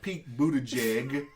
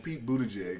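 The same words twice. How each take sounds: First: The name is said carefully, each syllable articulated. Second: The name is said casually, without careful articulation. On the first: "have to actually pronounce it to make sure it don't sound like jig" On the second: "if you say it normal"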